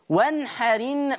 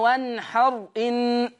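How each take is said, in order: First: The glottal stop is dropped, the r takes i. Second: The glottal stop is kept after a silent r. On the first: The speaker calls it right. "شيل الهمزة انقل الحركة بتاعتها للحرف الساكن اللي قبل منها" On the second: The speaker calls it wrong. "مش بقى وانحر ان، لا"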